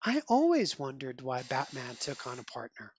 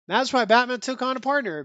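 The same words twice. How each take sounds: First: Low, soft, knowing Catwoman line; a hint of sly admiration, kept low; lightly voiced Catwoman. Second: Plain, amused restatement through a laugh. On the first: Catwoman praising Robin, low soft knowing read. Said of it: "Catwoman endorsing him". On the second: Real, not acted. Reviewer repeating the line to viewers, amused. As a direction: toss it back at the audience, chuckling. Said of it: "there you have it, folks".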